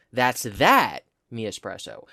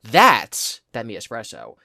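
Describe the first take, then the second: First: Slow, second "that" leaned on; stress on the second THAT. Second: "That's" punched louder; slow, hit "That's" hardest; stress on THAT'S. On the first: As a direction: push the second "that". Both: Shown as a demonstration. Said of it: "every single possible combination, of emphasis".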